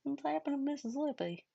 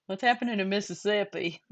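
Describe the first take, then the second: First: Softer retake of the mock Southern line; a vague put-on Southern accent, said softer; odd mock accent. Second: A light mock Southern accent on Mississippi. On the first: Retrying the bit for her co-host, in a vague put-on Southern accent. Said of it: "It's not Southern. I don't know what the hell it is". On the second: Teasing a friend on stream, in a light mock Southern accent. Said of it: "I like [name]'s Southern accent". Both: Shown as a demonstration.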